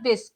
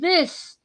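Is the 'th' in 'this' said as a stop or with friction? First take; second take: stop; friction. First: The th is a hard stop without friction. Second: The th is a soft sound with friction. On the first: The speaker calls it wrong. "but it is not this" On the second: The speaker calls it right. "It is uh, this"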